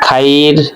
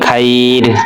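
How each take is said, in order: First: The vowel after kh is an open 'ah'. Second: The same.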